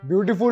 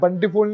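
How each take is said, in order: First: The first syllable sounds like 'byoo'. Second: The first syllable sounds like 'ban'. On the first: The speaker calls it right. "ब्यूटीफुल होता है" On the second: The speaker calls it wrong. "बंटीफुल नहीं"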